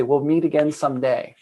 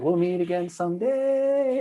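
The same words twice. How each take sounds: First: Said in the usual way. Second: High, slow, otherworldly voice; gentle high inner voice, someday climbing. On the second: Retold or imitated. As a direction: float it up high and slow like a voice from inside. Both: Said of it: "it was like a high".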